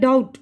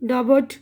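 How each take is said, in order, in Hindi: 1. 'b' की ध्वनि खामोश रहती है। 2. 'b' की ध्वनि बोली जाती है। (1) "उसके बाद है ये डाउट" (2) "मैंने साइलेंट कुछ भी नहीं किया है"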